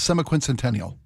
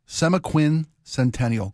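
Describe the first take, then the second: First: The word is said quickly. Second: The word is said slowly. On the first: "You said it very fast" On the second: "Say it slow for people"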